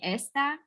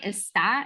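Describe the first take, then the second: First: The stress is on the first syllable. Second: The stress is on the second syllable. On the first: It means this, like this thing. The speaker calls it wrong. "then that means this, like this thing" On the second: Someone is located somewhere. The speaker calls it right. "those accents tell us we got to punch that syllable"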